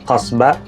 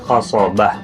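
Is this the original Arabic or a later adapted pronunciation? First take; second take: adapted; Arabic. First: It is said in a shortened, adapted form. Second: It is said in the original Arabic form. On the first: This is how it came to be said in use. "dalam penyebutannya jadi qasbah" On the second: This is how the source language says it. "pelafalannya itu adalah qasobah"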